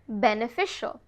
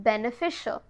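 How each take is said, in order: Both takes have the same delivery.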